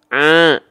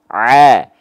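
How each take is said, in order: First: Part of the sound goes through the nose. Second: The sound comes out fully through the mouth. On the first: The speaker calls it wrong. "kalau ada sebagian masuk ke rongga hidung, bunyinya seperti ini" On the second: The speaker calls it right. "full semuanya ke rongga mulut, lalu keluar mulut, bunyinya begini"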